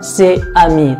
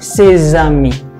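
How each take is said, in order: First: Ses and amis are said without a linking z. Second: Ses and amis are joined by a z sound. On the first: The speaker calls it wrong. "bukan ses amis" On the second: The speaker calls it right. "tapi ses amis"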